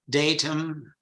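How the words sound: It is said with a British pronunciation.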